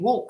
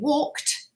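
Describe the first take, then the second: First: The word ends with a voiced d sound. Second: The word ends with an unvoiced t sound. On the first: The speaker calls it wrong. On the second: The speaker calls it right.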